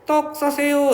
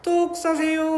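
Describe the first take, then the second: First: The vowel in 싸 is a plain a. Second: The vowel in 싸 sounds between a and o.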